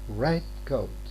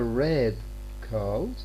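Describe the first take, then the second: First: The stress falls on the word red. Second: The stress falls on the word coat. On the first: It is a compound word. "As a compound word, we tend to stress the first element" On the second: It is an ordinary phrase. "So this one is what we stress most"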